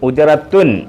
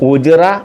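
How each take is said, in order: First: The word ends with a t and -un. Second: The word ends in a vowel without t. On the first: "ഉജ്റത്തുൻ എന്നാണ്" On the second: "ഈ താഇനെ പറയാറില്ല, ഉച്ചരിക്കത്തില്ല"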